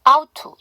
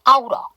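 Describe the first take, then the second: First: The first t drops and 'to' stays full. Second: The t is a light flap, 'to' reduced. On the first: "tt니까 앞에 t를 하지 않으면 out to" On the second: "t를 약화하니까 out러 이렇게 발음하실 수 있겠죠"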